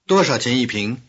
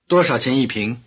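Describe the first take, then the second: The two takes are said the same way.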